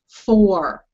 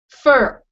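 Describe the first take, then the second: First: The vowel sounds like the one in 'four'. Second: The vowel sounds like the one in 'fur'. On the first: The speaker calls it right. "No. Four" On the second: The speaker calls it wrong. "Not fur like you got on the dog. Fur"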